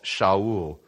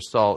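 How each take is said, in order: First: The name begins with an sh sound. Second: The name begins with an s sound. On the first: This is the original Hebrew form of the name. "the Hebrew pronunciation for Saul is Shaul" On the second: This is the transliterated form of the name. "We just transliterated it Saul"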